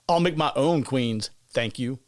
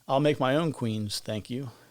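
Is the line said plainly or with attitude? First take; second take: attitude; plainly. First: It is said with sassy attitude. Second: It is said plainly, without attitude.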